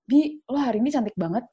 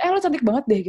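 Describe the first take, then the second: First: Gentler compliment. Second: Higher-pitched, abrupt mock catcall; blunt catcall. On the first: Friend sincerely praises her looks, gentler compliment. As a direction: give the compliment gently, without pushing. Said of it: "Maksudnya kayak lebih halus gitu loh". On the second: Friend blurts out a compliment at her, blunt imitated catcall. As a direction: imitate a too-direct, pushy compliment. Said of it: "jangan langsung kayak". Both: Shown as a demonstration.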